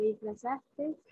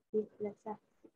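First: "disfrazaste" with an extra final S; disfrazaste with added S. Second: Said in the usual way. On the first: Shown as a demonstration. Student showing the class the error, "disfrazaste" with final S added. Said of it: "No se dice". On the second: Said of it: "se dice".

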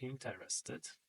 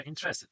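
First: Interested. said slowly and quietly, syllable by syllable: in-te-res-ted; careful spelling pronunciation. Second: Interested said as IN-tres-ted, three syllables, the middle e swallowed; pronunciation demo. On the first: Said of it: "Ale pisze się in te". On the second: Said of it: "wymawia interested". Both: Shown as a demonstration.

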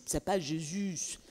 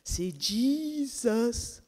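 First: Jésus said the French way, /ʒezy/; slow French "Jésus" with a soft j; wrong French way. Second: Jesus said in English, very slow, /dʒizəs/; drawn-out English "Jesus" with a hard dj. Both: Shown as a demonstration. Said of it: "Non, c'est, c'est".

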